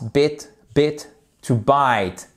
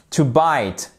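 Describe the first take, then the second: First: Slow bit short then to bite with ai; bit versus bite. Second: To bite with ai; long i. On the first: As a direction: contrast short i and ai. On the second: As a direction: open diphthong in bite. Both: Shown as a demonstration. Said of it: "vous voyez la différence?".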